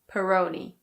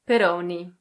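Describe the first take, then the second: First: It is said in an American English accent. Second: It is said with an Italian pronunciation. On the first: "In American English, the O sound changes a bit" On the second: "In Italian, this is pronounced Peroni"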